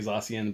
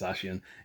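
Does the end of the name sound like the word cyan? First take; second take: no; yes. First: The name's ending does not sound like cyan. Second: The name's ending sounds like the word cyan. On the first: The speaker calls it wrong. "I like to say Zacian" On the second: The speaker calls it right. "the right way to say it is Zacian"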